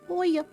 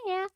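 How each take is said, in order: First: It is said in a lower, normal voice. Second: It is said in a high-pitched voice. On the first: The speaker calls it right. "I'm not doing a high-pitched voice for him" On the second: The speaker calls it wrong. "nope, no, that's not the voice"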